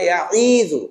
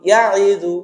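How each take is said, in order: First: The vowel after 'ya' is stretched out long. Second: The vowel after 'ya' is kept short. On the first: The speaker calls it wrong. "ছাত্ররা কিন্তু ভুল করে বলে ইয়া ইজু টান দেয়" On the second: The speaker calls it right. "এখানে ইয়া আইনে কোনো টান নেই"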